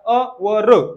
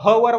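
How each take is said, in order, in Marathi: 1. शब्द स्वराच्या आवाजाने सुरू होतो. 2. शब्द h आवाजाने सुरू होतो. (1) "अवर असं वाचत असत्या" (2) "याला ह वर वाचत नसता"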